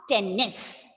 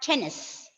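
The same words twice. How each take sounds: First: The middle n sound is held long and doubled. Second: The middle n sound is short and single. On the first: The speaker calls it wrong. "not tennis" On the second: The speaker calls it right. "It should be read as tennis"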